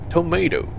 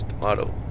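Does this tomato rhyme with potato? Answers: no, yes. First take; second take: yes; no. First: The word is said to rhyme with potato. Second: The word is said not rhyming with potato. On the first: The speaker calls it wrong. "It's spelled similar to potato. So maybe, just maybe, we should pronounce it tomato" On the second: The speaker calls it right. "It's tomato"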